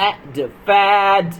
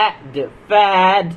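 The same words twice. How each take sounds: The two takes are said the same way.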